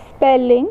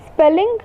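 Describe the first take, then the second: First: "spelling" in two even beats, spel-ling; "spelling" sounded out as spel, ling; split into syllables. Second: Said in the usual way. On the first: Shown as a demonstration. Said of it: "two syllables". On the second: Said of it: "spelling has two syllables".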